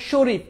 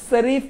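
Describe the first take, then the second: First: "শরীফ" begun with a sh sound, as in "ship"; correct palatal sh. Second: "শরীফ" wrongly begun with s, as Sarif; mispronunciation demo. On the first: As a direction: say "শরীফ" as Shorif, with initial sh. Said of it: "এটা তালব্যস্য". ("শরীফ" তালব্য শ দিয়ে, sh-এর মতো) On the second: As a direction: say "শরীফ" with a hissed s in place of sh. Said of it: "এভাবে বলবা?". ("শরীফ"-এর শ-কে দন্ত্য স করে ভুল উচ্চারণ) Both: Shown as a demonstration.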